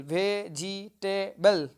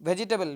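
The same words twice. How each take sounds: First: ভেজিটেবল very slowly as ve-ji-te-bol; teacher sounding out ভেজিটেবল syllable by syllable; broken into syllables. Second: Said in the usual way. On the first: Shown as a demonstration. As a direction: split ভেজিটেবল into four separate beats. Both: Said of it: "এইভাবে কিন্তু ভাঙা".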